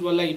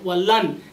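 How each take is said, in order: First: "walai", the n melted into the following y; recitation-style merged "walai"; tajweed assimilated form. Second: "walan" with the final n fully sounded; emphatic "walan", n left unmerged; unmerged word form. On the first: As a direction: say "walai" as the tajweed rule joins it, with no n heard. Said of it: "because of tajweed rule, it becomes walai". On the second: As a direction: say "walan" as the separate particle, ending on a clear n. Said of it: "because of tajweed rule". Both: Shown as a demonstration.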